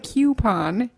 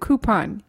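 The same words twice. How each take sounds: First: The word begins with a 'kyoo' sound. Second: The word begins with a plain 'koo' sound. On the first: The speaker calls it wrong. "You don't say coupon. There's not a Q" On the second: The speaker calls it right. "Because it's a C-O-U"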